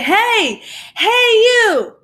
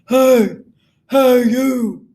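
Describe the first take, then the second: First: It is called out in a higher, brighter voice. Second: It is said in a very deep, low voice.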